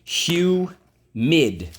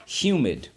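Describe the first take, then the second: First: Humid called out higher and louder; rising teacher call of Humid; model word loudly. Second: Said in the usual way. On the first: Shown as a demonstration. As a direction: announce Humid to the class, high and strong. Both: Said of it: "let's go".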